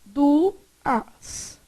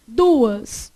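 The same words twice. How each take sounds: First: "duas" as du, as with a gap; "duas" slowly broken in two; split into syllables. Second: Said in the usual way. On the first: Shown as a demonstration. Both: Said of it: "como é que você separou".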